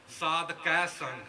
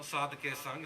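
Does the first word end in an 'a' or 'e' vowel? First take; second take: a; e. First: The first word ends in an 'a' vowel. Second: The first word ends in an 'e' vowel. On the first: The speaker calls it right. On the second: The speaker calls it wrong.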